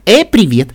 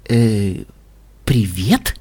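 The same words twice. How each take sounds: First: Higher, louder mimicked hello; beaming announcement. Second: Low, uncertain hello; hesitant greeting. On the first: Pinkie relays the listener's words, beaming. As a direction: cheerfully parrot someone's greeting. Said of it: "сияя объявила Пинки Пай". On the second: Listener caught out by Pinkie, hesitant. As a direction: answer haltingly, as a question. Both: A narrator's reading.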